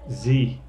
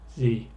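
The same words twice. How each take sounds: First: It is said the American way. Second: It is said the American way.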